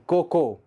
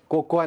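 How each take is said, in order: First: कोको in two syllables, "KO-ko"; correct pronunciation. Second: कोकोआ in three syllables, "ko-ko-aa"; wrong pronunciation. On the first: Teacher correcting learners, कोको without the "aa". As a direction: say कोको with the final a silent. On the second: Teacher showing learners the mistake, कोकोआ with a final "aa". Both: Shown as a demonstration. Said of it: "कोकोआ नहीं".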